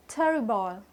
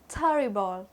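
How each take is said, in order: Both takes have the same delivery.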